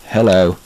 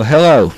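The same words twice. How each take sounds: First: Southern greeting that slips slightly British; "hello" with a faintly British round "o"; accidentally British-sounding hello. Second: Louder, high-pitched Southern "hello" that falls. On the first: Listing Southern greetings, hello comes out kinda British. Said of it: "came out kinda British". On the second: Redoing the British-sounding hello, higher, louder Southern accent. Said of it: "that's how it more sounds like". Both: Shown as a demonstration.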